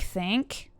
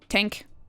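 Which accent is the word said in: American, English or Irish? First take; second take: American; Irish. First: It is said in an American accent. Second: It is said in an Irish accent. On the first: "Americans say, oh my god, like think" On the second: "Irish say think"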